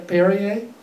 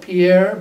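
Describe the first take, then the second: First: The name is said like 'Perrier'. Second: The name is said like 'Pierre'. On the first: This is what the brand is actually called. The speaker calls it right. "but it's called" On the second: This is the speaker's own habitual way of saying it. The speaker calls it wrong. "I call it Pierre"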